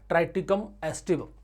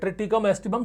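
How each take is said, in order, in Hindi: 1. पहले अक्षर में 'eye' वाला स्वर है। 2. पहले अक्षर में छोटा 'ih' वाला स्वर है। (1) "कोई ट्राइटिकम कहता है" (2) "कोई ट्रिटिकम कहता है"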